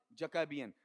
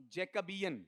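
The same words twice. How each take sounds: First: जैकोबियन with light first syllable, weight after it; stress moved forward. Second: जैकबियन stressed on जै, like Jacob plus -ian; wrong first-syllable stress. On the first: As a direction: hit the second syllable of जैकोबियन. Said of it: "stress यहाँ से proceed आगे कर जाएगा". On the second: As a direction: hit जै hard in जैकबियन. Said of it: "अब ऐसा नहीं". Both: Shown as a demonstration.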